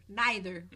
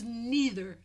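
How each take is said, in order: First: "neither" with a long i first vowel; "Neither" starting like nigh; NYE-ther. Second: "neither" with an ee first vowel; "neither" starting like knee; NEE-ther. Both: Shown as a demonstration. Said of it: "How would you say it?".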